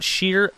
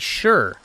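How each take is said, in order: First: The ending sounds like 'sheer'. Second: The ending sounds like 'sure'. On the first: The speaker calls it wrong. "it's not sheer" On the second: The speaker calls it right. "it be sure"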